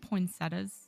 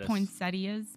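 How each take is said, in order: First: The i sound before the ending is dropped. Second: The i sound before the ending is pronounced. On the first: This is the speaker's own way of saying it. "You don't pronounce the I?" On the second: This is how most people say it. "people say poinsettias"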